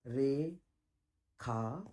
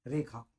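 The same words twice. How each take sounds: First: रेखा split into two long, low syllables; रे and खा held apart with a long gap; drawn-out word. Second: Said in the usual way. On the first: Shown as a demonstration. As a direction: stretch Rekha very slowly, syllable by syllable. Teacher stretches the key word.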